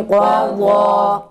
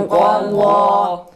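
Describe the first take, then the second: No difference in how they are said.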